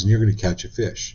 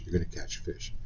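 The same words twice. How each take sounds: First: Said in the usual way. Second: \"You're gonna catch a fish\" dropped to a near-whisper; soft unvoiced echo of the prediction; hushed repeat. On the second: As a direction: breathe the repeat, almost secret.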